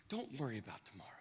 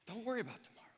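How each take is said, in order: First: Soft quote. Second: Don't worry about tomorrow, whispered; whispered repeat. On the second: Preacher repeating Jesus's words, whispered. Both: Shown as a demonstration. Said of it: "it's why Jesus said".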